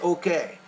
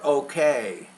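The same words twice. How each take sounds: First: The final vowel is short and clipped. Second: The final vowel is long and drawn out. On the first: The speaker calls it wrong. "you say okay" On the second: The speaker calls it right. "That vowel, need to make it longer"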